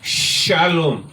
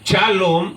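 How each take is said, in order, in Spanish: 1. El primer sonido es un sonido 'sh'. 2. El primer sonido no es un sonido 'sh'. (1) "sino que es shalom. Amén. S H" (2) "no es shalom"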